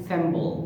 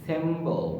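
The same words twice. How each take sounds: Both takes have the same delivery.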